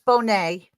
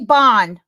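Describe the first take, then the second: First: The surname ends with a 'nay' sound. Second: The surname ends with an 'nd' sound. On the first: The speaker calls it right. "but it's Bonet" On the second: The speaker calls it wrong. "he said Carly Bond"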